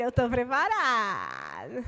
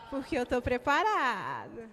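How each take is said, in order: First: "Eu tô preparado." slow, lower, drawn-out and emphatic; proud declaration. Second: "eu tô preparado" firm, with a rising "preparado"; modeled reply to the neighbor; emphatic declaration. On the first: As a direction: declare it with conviction. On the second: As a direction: answer with conviction. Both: Shown as a demonstration. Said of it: "Mas tem que ser com essa entonação".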